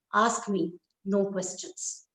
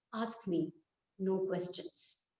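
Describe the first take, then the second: First: Slow, firm and clipped; curt refusal. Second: Slow and much softer; cold quiet refusal. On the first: Husband refuses his wife's question, slow and firm. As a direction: shut her down, slowly. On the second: Husband quietly refuses his mother, slow and soft. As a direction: say it low, closing the matter. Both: Acted.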